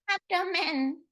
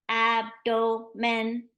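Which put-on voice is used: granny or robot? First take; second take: granny; robot. First: It is said in an old lady's voice. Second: It is said in a flat robotic voice. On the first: "say it like a granny" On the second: "Say it like a robot"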